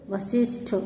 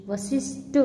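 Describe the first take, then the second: First: Said in the usual way. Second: वशिष्ठ as unaspirated "vasisht"; mispronounced. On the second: Shown as a demonstration. Teacher showing students an error, वशिष्ठ mispronounced. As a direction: drop the aspiration in वशिष्ठ. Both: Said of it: "ष्ठ के स्थान पर".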